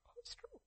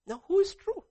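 First: The same question dropped to near silence; soft echo. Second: A high, loud cry to the congregation; loud challenge. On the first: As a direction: let it fall away, barely heard. Preacher echoes question softly. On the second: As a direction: fling the question out, almost shouting. Preacher's loud rhetorical question. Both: Acted.

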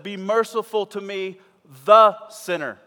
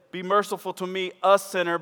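First: The sinner with "the" punched hard and loud; stress on THE. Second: Said in the usual way. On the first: Shown as a demonstration. Preacher showing how Jesus said it, heavy stress on "the". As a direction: lean on "the" in "the sinner". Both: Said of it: "You see the difference?".

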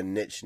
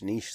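First: "niche" said as nitch, short i and ch; nitch pronunciation. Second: "niche" said as neesh, long ee and sh; neesh pronunciation. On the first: Co-host giving both accepted ways, "niche" said as nitch. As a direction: rhyme "niche" with pitch. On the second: Co-host giving both accepted ways, "niche" said as neesh. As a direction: rhyme "niche" with leash. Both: Shown as a demonstration. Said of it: "I don't think that's a right or a wrong thing".

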